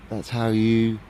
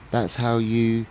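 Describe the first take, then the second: No difference in how they are said.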